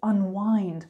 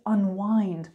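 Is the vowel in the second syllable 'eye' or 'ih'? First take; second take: eye; eye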